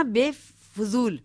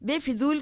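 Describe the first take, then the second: First: बेफजूल, slowly, with an "u" after the f; a slow, spelt-out बेफजूल with "fu" in the middle. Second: बेफिजूल with a short "i" after the f; the variant बेफिजूल, "fi" in the middle. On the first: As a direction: say बेफजूल as be-fu-zool. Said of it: "बेफिजूल कुछ लोग बोलते हैं". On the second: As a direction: say बेफिजूल as be-fi-zool. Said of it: "कुछ लोग बोलते हैं". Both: Shown as a demonstration.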